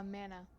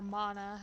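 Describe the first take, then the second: First: "mana" with the short a of "man"; "mana" pronounced like "manna"; alternate pronunciation. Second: "mana" with a broad "ah" in the first syllable; open-vowelled "mana", first syllable as in "father"; alternate pronunciation. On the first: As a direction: say "mana" to rhyme with "Hannah". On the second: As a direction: say "mana" as MAH-nuh. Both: Shown as a demonstration. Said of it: "however you wanna pronounce it".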